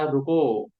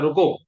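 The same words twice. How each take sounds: First: It is said gently, as a loving request. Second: It is said harshly, as an angry command.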